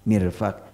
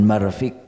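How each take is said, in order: First: The first vowel is an i sound. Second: The first vowel is an a sound. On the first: It names the elbow of the arm. The speaker calls it right. "illa kasral mim" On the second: It is not used for the elbow here. The speaker calls it wrong. "jangan marfik kalau untuk ini"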